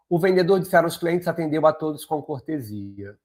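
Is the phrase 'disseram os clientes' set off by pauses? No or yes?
no. It runs on without pauses around the inserted phrase. The speaker calls it wrong. "vamos imaginar aqui que eu não tenha a vírgula. Olha como vai ficar super esquisito"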